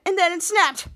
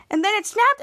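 First: "And then it snapped" falling at the end; confirming statement. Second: "And then it snapped" pitched up, rising at the end; questioning. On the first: Henry answers Charlotte, "And then it snapped" as a falling statement. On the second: Charlotte questions Henry's story, "And then it snapped" as a rising question. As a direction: ask "And then it snapped" with a high rise on "snapped". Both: Acted.

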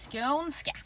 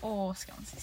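First: Skånska said with a lilting Skåne rise; Skånska in a light, joking Skåne accent; mock Skåne accent. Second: Said in the usual way. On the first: Shown as a demonstration. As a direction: try out Skånska in a Scanian accent. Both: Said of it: "jag ska inte prata så".

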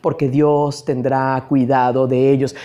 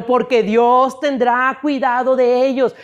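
First: Much lower, level and subdued; low-pitched delivery. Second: Lifted, insistent preaching voice; raised, emphatic. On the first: Preacher stating God will care for them, in a low voice. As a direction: say it low, barely moving the pitch. Same phrase said low, then emphatically. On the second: Preacher assuring a brother God will care, raised and emphatic. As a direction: press the assurance home in a raised voice. Same phrase repeated high to brother. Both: Shown as a demonstration.

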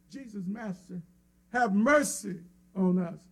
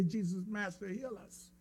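First: Said in the usual way. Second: Softly, the wrong request; much softer, as what they did not say; quiet counter-example. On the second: Shown as a demonstration. Preacher softly voicing what the lepers did not say. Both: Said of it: "Notice they didn't say".

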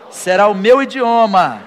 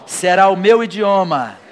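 Both takes have the same delivery.

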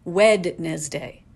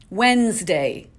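First: Wednesday said slowly as written, Wed-nes-day; spelled-out Wednesday. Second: Wednesday said slowly as Wensday, no D; usual Wednesday. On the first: Vlogger reads Wednesday the way it is spelled. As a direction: sound every letter of Wednesday, slow. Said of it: "It is spelled". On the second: Vlogger shows how everyone actually says Wednesday. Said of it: "We all pronounce it". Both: Shown as a demonstration.

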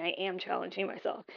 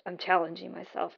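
First: "am" stressed, not contracted, to reaffirm. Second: Said in the usual way. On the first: Real, not acted. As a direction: lean on "am", then let the rest drop softly. Reaffirms it after saying maybe.

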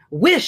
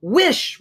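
First: High, loud commanding cry; strong cry. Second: Higher, louder repeated command; insistent cry. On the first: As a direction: order it with force. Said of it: "she cried in a strong voice". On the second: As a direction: demand it again, harder. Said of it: "repeated his wife". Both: A narrator's reading.

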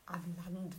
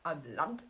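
First: Questioning Am Land with a falling, doubtful tone; incredulous. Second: Said in the usual way. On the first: Real, not acted. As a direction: echo Am Land in quiet disbelief. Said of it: "Wer sagt denn am Land?".

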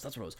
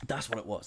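First: Much softer echo to himself; softer murmured echo; trailing quiet repeat. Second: Said in the usual way. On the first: Real, not acted. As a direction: let the repeat fall away, softer. Repeat trails away under breath.

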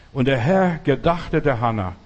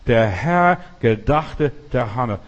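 First: Said in the usual way. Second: Slow, weighty "Der Herr gedachte der Hannah", each word set apart; emphatic repetition. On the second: Real, not acted. Preacher hammering home the key verse to the congregation, slow and emphatic.

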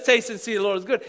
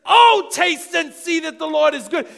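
First: Said in the usual way. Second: Passionate exclamation. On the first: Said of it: "N I V says". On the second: Shown as a demonstration. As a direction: proclaim it like the best news ever. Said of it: "it's so intense and so passionate".

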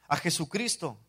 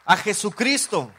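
First: Said in the usual way. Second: Louder and slow, proclaiming "A Jesucristo"; preacher's ringing cry of "A Jesucristo"; emphatic proclamation. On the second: Acted. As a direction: draw out "A Jesucristo" with force. Repeats name, first emphatic.

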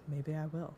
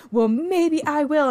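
First: Understated, much softer, almost to oneself; subtle. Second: Hammed-up, high, loud and slow; overdone. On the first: Retold or imitated. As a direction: toss it off very quietly. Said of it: "Hillary just does it very subtly". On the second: Shown as a demonstration. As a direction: overact it with a big, drawn-out high swoop. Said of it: "it's overdone".

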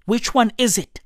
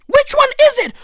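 First: Said in the usual way. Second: High, loud, punching the question "Which one is it?"; exasperated shout of "Which one is it?" at the organiser; loud demand. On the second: Shown as a demonstration. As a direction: yell "Which one is it?" at him, demanding an answer.

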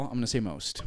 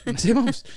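First: Said in the usual way. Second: "most" lifted higher with a rise; stress on most. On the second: Shown as a demonstration. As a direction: restate it, hitting "most" up high. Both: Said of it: "I don't wanna say all".

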